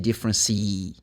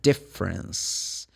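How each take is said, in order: First: The word ends with an extra vowel sound. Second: The word ends without an extra vowel sound. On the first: The speaker calls it wrong. "You don't say difference C" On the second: The speaker calls it right. "I'm saying difference. The E is not pronounced"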